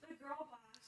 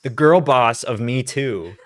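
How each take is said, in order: First: "The girl boss" breathed as an unvoiced whisper; whispered aside. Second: Put-on "The girl boss of Me Too" said slow and louder, stress on "girl"; slow emphatic jab. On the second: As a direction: drag out "girl boss" mockingly.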